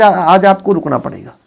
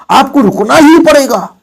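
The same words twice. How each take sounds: First: Said in the usual way. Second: ही punched higher and louder; stress on ही. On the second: Shown as a demonstration. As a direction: hit ही hard in आपको रुकना ही पड़ेगा. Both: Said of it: "जोर दे दिया गया".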